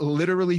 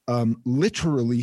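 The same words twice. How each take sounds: First: The word is pronounced in a plain, ordinary way. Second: The word is pronounced in a fancy, pretentious way. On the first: The speaker calls it right. "So I'm going to say correctly" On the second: The speaker calls it wrong. "I don't like saying literally that way. Literally. Like, I always think that's so pretentious"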